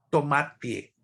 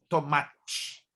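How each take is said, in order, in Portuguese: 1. O t final continua sendo um t simples. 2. O t final soa como 'tchi'. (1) "No sul do Brasil, por outro lado" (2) "É como tivesse o tch no final"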